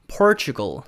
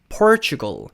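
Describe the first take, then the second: The two takes are said the same way.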